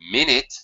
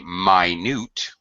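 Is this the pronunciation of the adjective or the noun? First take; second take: noun; adjective. First: It is said the usual way, as the noun. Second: It is said the other way, as the adjective. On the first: A unit of time. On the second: Something very, very tiny.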